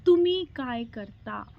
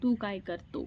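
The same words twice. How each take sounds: First: तुमी काय करता said slowly and carefully, the polite form for elders; slow, careful तुमी काय करता with respectful तुमी; respectful Marathi. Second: Put-on तू काय कर तो with familiar तू, as said to a small child; casual तू काय कर तो, the form for kids; informal Marathi. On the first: Husband teaching her the polite form for elders, slow respectful Marathi. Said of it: "मेरे husband जी बोले". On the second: Explaining to viewers the form for children, casual Marathi. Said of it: "उनको तू बोलते हैं". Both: Shown as a demonstration.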